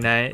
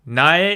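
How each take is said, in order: First: The word is said quickly, running together. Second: The word is said slowly and fully.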